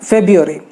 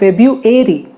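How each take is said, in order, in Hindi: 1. British लहजा, जिसमें 'r' की आवाज़ छोड़ दी गई है। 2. अमेरिकन लहजा, जिसका अंत 'airy' सुनाई देता है। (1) "यूके वाले इसे कहते हैं फेब्रुअरी, र कहते ही नहीं है वो" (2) "यूएसए वाले इसे कहते हैं फेब्रुअरी, यानी उसने अ के जगह पे ए कर दिया"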